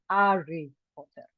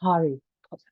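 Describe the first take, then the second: First: The name starts directly on the vowel. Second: The name starts with a breathy h sound. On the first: "if the breathing was the other way around, then I would say" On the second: "rough breathing ... pronounced as an aspiration ... So it's a ha sound"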